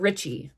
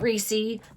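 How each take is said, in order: First: The vowel is followed by a ch sound. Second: The vowel is followed by an s sound. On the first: The speaker calls it right. "you would pronounce the double C as C H" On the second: The speaker calls it wrong. "Not Reese"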